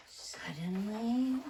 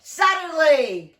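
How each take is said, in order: First: Slow dramatic suddenly. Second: Suddenly boomed out loud and slow; loud dramatic suddenly. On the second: To the children, a big storyteller's boom. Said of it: "Okay, we'll try again". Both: Shown as a demonstration.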